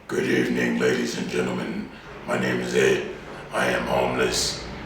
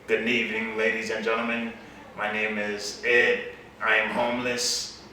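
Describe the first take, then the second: First: The voice is deeper, sounding angrier. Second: The voice is higher, less deep.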